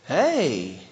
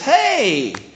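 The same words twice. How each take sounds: First: It sounds tender and affectionate, like romantic interest. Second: It sounds excited and warmly glad to see someone.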